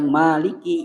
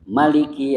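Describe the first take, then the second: First: The first vowel is long. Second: The first vowel is short. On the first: It stresses that God is the owner. "Dibaca panjang" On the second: It stresses that God is the king. "maliki dibaca pendek. Bihasbiha dengan membuang alif"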